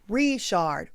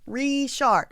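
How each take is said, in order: First: The stress is on the first syllable. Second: The same.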